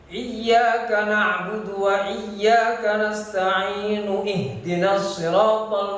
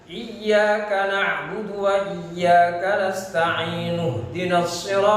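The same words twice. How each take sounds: First: The i vowel starting ihdina is pronounced separately. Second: The i vowel is dropped, linking straight into hdina. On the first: The speaker calls it wrong. "orang tertipu dengan membacanya" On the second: The speaker calls it right. "Padahal hamzahnya hamzah wa wasal. Maka harus dibaca"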